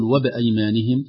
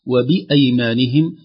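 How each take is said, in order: First: "وبأيمانهم" with the i dropped, "wab-aymanihim"; swallowed kasra. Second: Slow "وبأيمانهم" with a full i after the b, "wa-bi-ay"; clear kasra on ba. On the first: Sheikh shows the feared slip, "وبأيمانهم" with vowelless ba. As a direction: rush the ba of "وبأيمانهم" into the hamza, vowelless. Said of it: "يخشى أن يقول". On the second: Sheikh models careful reading, "وبأيمانهم" with full "bi". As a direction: give the ba of "وبأيمانهم" a distinct short i. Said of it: "تحقيق كسرة الباء قبل الفتحة". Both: Shown as a demonstration.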